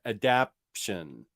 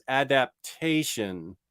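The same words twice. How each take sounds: First: "adaption" in three syllables, a-DAP-shun, slow and lower; slow, low "adaption", testing the coined word. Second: "adaptation" with a full TAY syllable before the end; correcting pronunciation. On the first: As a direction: stretch out "adaption" with no TAY syllable. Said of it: "you may have coined a word there". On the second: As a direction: sound out "adaptation" carefully in four syllables, ad-ap-TAY-shun. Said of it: "I think it's adaptation". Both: Shown as a demonstration.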